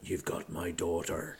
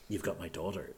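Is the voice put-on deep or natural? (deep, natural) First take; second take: deep; natural. First: The voice is a flattened, exaggeratedly deep put-on. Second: The voice is natural, without put-on depth. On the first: The speaker calls it wrong. "his voice isn't like, he's not like a, hey" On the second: The speaker calls it right. "Like, it's just"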